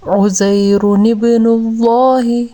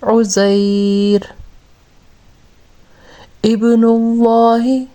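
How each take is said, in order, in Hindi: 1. दोनों शब्द एक लिंकिंग 'नु' के साथ जुड़े हुए हैं। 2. 'उज़ैर' के बाद एक विराम आता है, जिससे 'नु' गिर जाता है।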